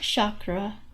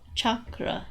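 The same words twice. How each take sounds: First: The word begins with an sh sound. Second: The word begins with a ch sound. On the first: The speaker calls it wrong. "it's not chakra, There is no S H in chakra" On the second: The speaker calls it right. "it's chakra"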